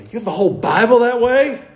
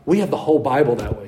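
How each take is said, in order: First: Higher, incredulous rising question; amazed. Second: Said in the usual way. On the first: Acted. Imagined telegraph-era listener hearing about phone Bibles, amazed question. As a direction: echo it in astonishment, rising at the end. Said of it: "they would be amazed".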